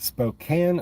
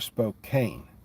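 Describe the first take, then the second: First: The A vowel is short. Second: The A vowel is long. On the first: "Short A" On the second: "or long A?"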